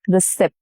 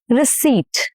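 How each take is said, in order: First: The p sound is pronounced. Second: The p sound is silent. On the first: The speaker calls it wrong. "not receipt" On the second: The speaker calls it right. "no p"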